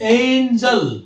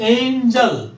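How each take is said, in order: No difference in how they are said.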